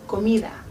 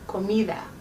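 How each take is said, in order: First: The D is soft, almost like TH. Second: The D is soft, almost like TH.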